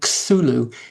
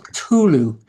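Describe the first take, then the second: First: The t and h blend into one th sound. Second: The t and h are kept as separate sounds. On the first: The speaker calls it wrong. "It's not T H, so the sound isn't supposed to be Cthulhu" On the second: The speaker calls it right. "the C T part, clear sound, and the H, Hulu, to be a separate"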